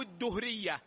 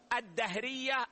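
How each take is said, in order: First: الدهرية said "ad-duhriyya", doubled d then u; الدهرية as ad-DUH-riyya, with damma; damma on the dal. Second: الدهرية said "ad-dahriyya", doubled d then a; الدهرية as ad-DAH-riyya, with fatha; fatha on the dal. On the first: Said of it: "بالتشديد والضم". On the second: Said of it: "بالتشديد والفتح على الدال". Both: Shown as a demonstration.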